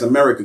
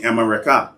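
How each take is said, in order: First: Said in the usual way. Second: America said as "am-a-re-KAH"; original Mayan pronunciation. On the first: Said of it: "They pronounced it as". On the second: Shown as a demonstration. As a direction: finish America on an open KAH. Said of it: "they heard the people using that terminology".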